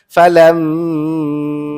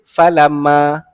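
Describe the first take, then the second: First: The nasal m is held too long. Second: The nasal m is cut short. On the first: "ataupun panjang sangat" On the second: "tak boleh baca pendek"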